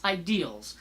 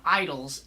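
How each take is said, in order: First: Said in the usual way. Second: "idols" with the middle vowel swallowed; lazy mispronunciation. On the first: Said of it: "it's ideals". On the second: Shown as a demonstration. Mocking a politician's word, "idols" for ideals. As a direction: squash ideals into two syllables, "idols". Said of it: "it's not idols".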